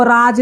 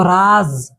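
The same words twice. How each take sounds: First: "राज" with a hard j at the end, as in jug; plain j sound. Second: "राज" said as raaz, ending in a buzzing z; nukta z sound. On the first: Teacher showing students the word without nukta, "राज" ending in j. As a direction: say "राज" ending in a clear j stop. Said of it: "इसको राज नहीं पढ़ेंगे". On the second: Teacher showing students the nukta word, "राज" pronounced raaz with a z. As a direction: end "राज" on a long z, not j. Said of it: "ज पढ़ेंगे". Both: Shown as a demonstration.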